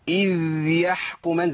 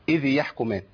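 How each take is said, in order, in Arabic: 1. الحرف الأخير يُمدّ أطول من اللازم ويُشدّد. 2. الحرف الأخير يُعطى حركة. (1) "وما ازودش الزمن قوي" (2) "ما اقولش اذ يحكمان، اذ يبقى انا حركت"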